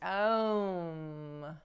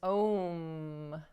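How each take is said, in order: First: The vowel glides from ah toward oo. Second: The word has a single plain o vowel. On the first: This is the original Sanskrit pronunciation. "the Sanskrit pronunciation is Aum" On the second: This is the common everyday pronunciation. "which many pronounce as Om"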